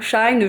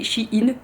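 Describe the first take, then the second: First: The name is not split into 'she' and 'in'. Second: The name is said as 'she' plus 'in'. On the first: Another way some people say the name. "je sais pas comment vous prononcez" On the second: The way the speaker herself says the name. "S H E ça fait She et I N ça fait In"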